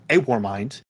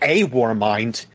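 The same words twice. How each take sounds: First: The phrase is said quickly, words run together. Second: The phrase is said slowly, words kept apart. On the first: It points back to one specific war mind. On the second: It names a warmind as one kind of thing.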